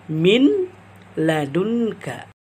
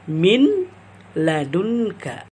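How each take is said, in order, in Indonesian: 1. Huruf n dibaca terpisah sebelum l. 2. Huruf n dibaca terpisah sebelum l.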